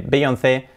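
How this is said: The name is said with Spanish pronunciation. The speaker calls it wrong. "aquí en España decimos Beyoncé ... nada de Beyoncé"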